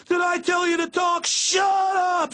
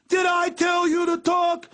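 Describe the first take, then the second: First: Much higher, full drill sergeant scream; screaming cop. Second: Much higher, slow barking cop demand; drill sergeant bark. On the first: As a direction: yell it at the top of your lungs like an angry cop. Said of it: "So loud". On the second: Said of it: "like they're a drill sergeant". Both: Retold or imitated.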